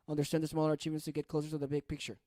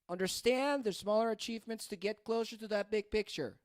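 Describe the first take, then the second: First: The pitch stays mostly flat across the sentence. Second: The pitch moves up and down across the sentence.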